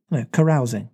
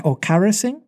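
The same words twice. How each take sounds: First: Carousing said kuh-ROW-zing, falling; right carousing. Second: Carousing said KA-ruh-sing; wrong carousing. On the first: Reader corrects herself on carousing. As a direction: say carousing to rhyme with arousing. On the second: Reader tries a wrong version of carousing. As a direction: say carousing as "carrasing", rising. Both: Shown as a demonstration.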